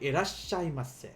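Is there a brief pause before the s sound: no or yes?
yes. There is a short pause before the s. The speaker calls it right. "You have to pause it"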